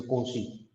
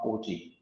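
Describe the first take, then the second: First: Soft, low "KOH-shee" for Cauchy; correct pronunciation. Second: Soft, low "KOH-chee" for Cauchy; wrong pronunciation. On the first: Teacher repeating the correction for students, Cauchy as "KOH-shee". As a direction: say Cauchy quietly with a sh in the middle. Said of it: "This is the pronunciation of this". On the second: Teacher repeating the students' mistake, Cauchy as "KOH-chee". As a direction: say Cauchy quietly with a ch in the middle. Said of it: "many of students are pronouncing wrong". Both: Shown as a demonstration.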